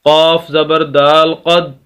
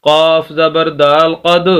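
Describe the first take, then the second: Both takes have the same delivery.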